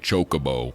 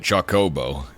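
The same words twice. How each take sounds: First: The first part does not sound like chocolate. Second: The first part sounds like chocolate. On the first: The speaker calls it wrong. "the people that say Chocobo" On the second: The speaker calls it right. "like chocolate"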